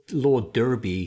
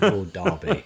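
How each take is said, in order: First: "Derby" with first syllable rhyming with her; wrong, American pronunciation. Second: "Derby" with first syllable like dar; British pronunciation. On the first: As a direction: say "Derby" as DUR-bee. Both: Shown as a demonstration. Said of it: "he wasn't called Lord Derby".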